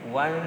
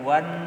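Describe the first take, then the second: First: The n is blurred into a nasal hum. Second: The n is pronounced clearly and fully. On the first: The speaker calls it right. "wan disamarkan nunnya" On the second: The speaker calls it wrong. "bukan wan"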